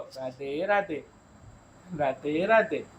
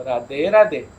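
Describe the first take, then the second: First: Put-on much softer, slow prompt for the toddler; hushed slow greeting modelled for a child; soft demo. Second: Said in the usual way. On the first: Shown as a demonstration. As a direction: say it gently so the child copies. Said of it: "આ બોલો". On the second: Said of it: "બોલો".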